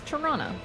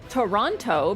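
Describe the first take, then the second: First: The word is said quickly with sounds dropped. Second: The word is said in full, carefully. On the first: "It's just Toronto" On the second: "People will use the easiest way to say things"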